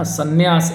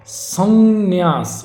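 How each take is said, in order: First: संन्यास quickly as "sanyaas"; short nasal. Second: संन्यास very slow, "sannn-yaas"; held nasal. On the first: Teacher showing the mistake, quick संन्यास. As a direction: run through संन्यास without dwelling on "n". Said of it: "इस तरह से नहीं होगा". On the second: Teacher correcting the word, drawn-out संन्यास with double "n". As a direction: stretch the nasal in संन्यास, higher-pitched. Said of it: "ये शुद्ध होगा". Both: Shown as a demonstration.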